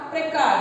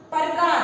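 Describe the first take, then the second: First: प्रकार said clearly, prəka, with a firm falling finish; correctly pronounced प्रकार; correct pronunciation. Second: प्रकार said with a slurred first syllable; mispronounced प्रकार demo; wrong pronunciation. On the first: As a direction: say प्रकार the right way, crisp and clear. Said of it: "शब्द होता है हमारा". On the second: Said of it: "मान लीजिए मैंने बोला". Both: Shown as a demonstration.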